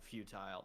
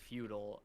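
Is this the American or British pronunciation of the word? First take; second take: British; American. First: The word is said the British way. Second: The word is said the American way. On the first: "in the U K they say a futile" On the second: "in America a lot of people say futile"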